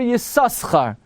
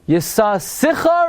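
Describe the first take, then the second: First: No extra vowel follows the second s. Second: An extra short vowel follows the second s.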